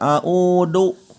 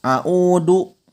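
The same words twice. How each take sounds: Both takes have the same delivery.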